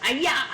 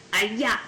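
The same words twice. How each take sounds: First: "Allá" struck short and sharp, higher, like a karate chop; punchy allá. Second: Said in the usual way. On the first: Shown as a demonstration. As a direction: chop the word "Allá" out crisply. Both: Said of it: "Remember the karate chop".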